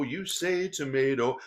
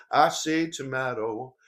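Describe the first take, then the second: First: "tomato" with a long AY in the middle; song lyric demo. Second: "tomato" with a broad AH in the middle; song lyric demo. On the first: Speaker quoting the song's first version, "tomato" as to-MAY-to. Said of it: "the song goes like this". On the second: Speaker quoting the song's other version, "tomato" as to-MAH-to. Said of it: "differences in pronunciation". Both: Shown as a demonstration.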